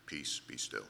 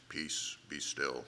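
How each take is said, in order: First: Deep, quiet commanding hush. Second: Authoritative. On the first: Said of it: "That's not what he said". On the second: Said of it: "That sounds pretty authoritative". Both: Shown as a demonstration.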